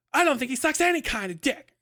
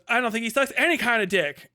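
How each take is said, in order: First: Much higher, theatrical camp voice; roasting impression of a camp drunk friend; over-the-top camp impression. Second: High, louder camp retort; a mildly camp indignant comeback. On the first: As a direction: ham up the drunk friend's retort. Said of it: "roasting him with that impression". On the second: Retold or imitated. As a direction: toss it off with theatrical flair.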